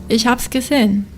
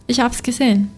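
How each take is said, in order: The two takes are said the same way.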